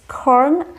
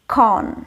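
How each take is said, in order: First: The word is said in an American accent. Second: The word is said in an Indian English accent. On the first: "in American English, it's corn" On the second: "Indian English, corn"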